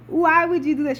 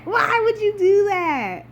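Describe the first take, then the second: First: Said in the usual way. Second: High, slow near-crying wail of why; half-sobbing plea at the writers; despairing wail. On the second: Real, not acted. Exasperated fan mourning killed character.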